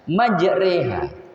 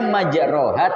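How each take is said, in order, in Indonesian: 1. Huruf vokal kedua berbunyi 'e'. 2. Huruf vokal kedua berbunyi 'o'. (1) "tapi bacanya majreha" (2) "Tulisannya majroha"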